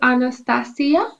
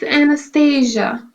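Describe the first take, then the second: First: The name is said in non-English pronunciation. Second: The name is said in English pronunciation. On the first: "in my language we say Anastasia" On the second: "in English it's Anastasia"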